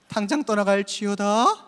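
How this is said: It is said gently and softly.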